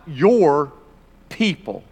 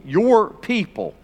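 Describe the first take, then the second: First: "your" pressed, "people" dropping away; God pointing at Moses with "your"; stress on your. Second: Slow "Your people" with "Your" weighted; God disowning the people with "Your"; stress on your. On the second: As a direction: draw out "Your" pointedly. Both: Shown as a demonstration. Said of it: "underline that phrase, your people".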